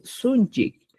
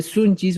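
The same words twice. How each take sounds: First: "sunchik" closed by a K; new ending -CHIK. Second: "sunchis" ending in an S; old ending -CHIS. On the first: Teacher gives learners the replacement, "sunchik" with K ending. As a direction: say "sunchik" with final K, no S. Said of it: "voy a decir sunchik". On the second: Teacher cites the form to replace, "sunchis" with S ending. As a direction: say "sunchis" with final S. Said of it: "En vez de sunchis". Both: Shown as a demonstration.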